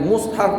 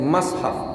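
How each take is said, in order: First: The first vowel is u. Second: The first vowel is a.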